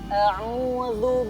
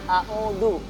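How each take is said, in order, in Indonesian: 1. Konsonan tengahnya adalah bunyi dh yang lembut. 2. Konsonan tengahnya adalah bunyi d biasa. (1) "Jadi cara membacanya a'udzu billah ya" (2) "Randi uh, itu membacanya a'udzu"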